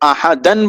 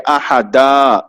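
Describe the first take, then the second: First: The word ends with a final n sound. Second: The word ends with a long a vowel. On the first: The speaker calls it wrong. "अगर रुकना है तो अहदन बोल के नहीं रुकेंगे" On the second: The speaker calls it right. "बल्कि अहदा, दो जबर हटके सिर्फ एक जबर और अलिफ पढ़ेंगे"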